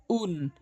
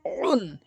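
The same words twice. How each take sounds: First: Said in the usual way. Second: উন begun with a squeezed throat; slow উন, pressed from the throat; pressed ayn. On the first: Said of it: "এটি চাপ দিয়ে". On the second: Shown as a demonstration. Teacher shows ayn, throat-pressed উন. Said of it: "আইনটি চাপ দিয়ে উচ্চারণ করবেন".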